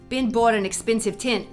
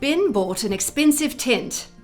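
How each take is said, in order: First: It is spoken in a Brooklyn accent. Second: It is spoken in a standard British accent. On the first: "In a classic sort of Brooklyn accent" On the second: "In a standard British accent"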